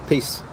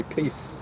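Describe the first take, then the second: First: Said in the usual way. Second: A soft breathy whisper of Peace; hushed whispered Peace. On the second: Real, not acted. Echoed sign-off, whispered.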